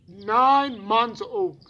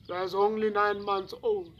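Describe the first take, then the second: First: Put-on "Nine months old" slow and loud, NINE drawn out high; emphatic repetition. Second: Said in the usual way. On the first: Witness repeating the murdered baby's age, emphatic disbelief on "Nine months old". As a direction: punch "Nine" high and long, then fall through "months old".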